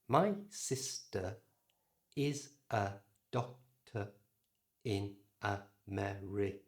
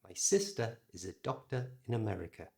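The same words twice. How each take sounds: First: The unstressed vowels are full and slower. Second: The unstressed vowels are reduced and faster. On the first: The speaker calls it wrong. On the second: The speaker calls it right.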